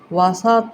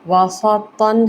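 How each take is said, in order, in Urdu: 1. یہ لفظ آخری n کے بغیر ختم ہوتا ہے۔ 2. یہ لفظ -tan پر ختم ہوتا ہے، آخر میں n ہے۔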